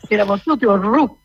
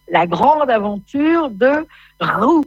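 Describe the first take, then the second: First: Roux said with a strongly rolled R. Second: Said in the usual way. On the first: Shown as a demonstration. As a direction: roll the R of Roux theatrically. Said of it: "Il faudrait rouler les R". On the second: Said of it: "Attention, il faut dire Roux".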